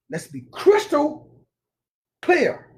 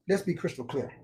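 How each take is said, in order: First: "Let's be crystal clear" said high and slow, each word leaned on; slow emphatic. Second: Said in the usual way. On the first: Real, not acted. Preacher repeating a point to listeners, slow, high and emphatic.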